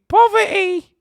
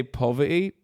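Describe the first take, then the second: First: Very high, loud British falsetto on "Poverty"; high-pitched British voice. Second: Said in the usual way. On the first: Shown as a demonstration. Streamer performing "Poverty" for chat, high-pitched British voice. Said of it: "Please do the high pitch". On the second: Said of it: "Please say poverty".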